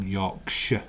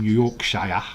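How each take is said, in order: First: Yorkshire ending in a short "shuh"; Yorkshire as "York-shuh"; local pronunciation. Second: Yorkshire ending in a full "shy-er"; Yorkshire as "York-shy-er"; mispronounced. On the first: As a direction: say Yorkshire with no I sound. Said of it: "That's how we say it". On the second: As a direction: pronounce the I in Yorkshire. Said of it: "I'm not from Yorkshire". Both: Shown as a demonstration.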